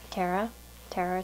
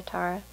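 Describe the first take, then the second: First: Tara rhyming with Sarah; first vowel of Tara as in "air"; name said TERR-a. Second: Tara with an open "ah"; first vowel of Tara as in "far"; name said TAH-ra. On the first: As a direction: say Tara as TAIR-uh. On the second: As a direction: say Tara as TAR-uh, like "car". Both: Shown as a demonstration. Offers two sayings of the name.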